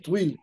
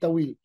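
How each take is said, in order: First: It is said with the Tunisian Arabic pronunciation. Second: It is said with the Syrian Arabic pronunciation. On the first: "en dialecte tunisien, tu dis Twil" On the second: "en arabe syrien, tu dis Tawil"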